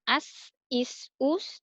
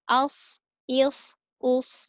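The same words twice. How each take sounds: First: The s sound is thin, tongue root not raised. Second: The s sound is thick, tongue root raised. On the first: The speaker calls it wrong. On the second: The speaker calls it right.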